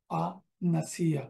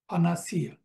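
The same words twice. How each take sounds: First: ফানাসিয়া said slowly, each syllable stretched; slow teaching demo of ফানাসিয়া; slow drawn-out pronunciation. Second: Said in the usual way. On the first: Shown as a demonstration. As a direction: spell out ফানাসিয়া slowly for students. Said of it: "teacher repeats the word slowly". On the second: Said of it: "teacher repeats the word".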